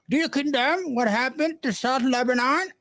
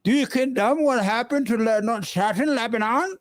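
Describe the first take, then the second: First: Put-on higher, more pronounced English accent on the second try, Lebanon rising; mock English accent. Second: Put-on English accent. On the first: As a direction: redo it with a stronger English accent. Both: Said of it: "English accent?".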